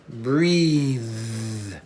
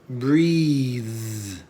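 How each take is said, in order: Both takes have the same delivery.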